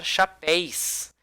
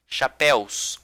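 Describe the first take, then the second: First: "chapéis" ending in -éis instead of -éus; wrong plural chapéis. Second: "chapéus" ending in an open -éus; correct plural chapéus. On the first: Teacher warns class what not to say, wrong plural chapéis. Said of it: "Não vai falar". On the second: Teacher repeats the right form for class, clear -éus in chapéus. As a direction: keep the u glide in "chapéus". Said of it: "Não vai falar chapéis". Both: Shown as a demonstration.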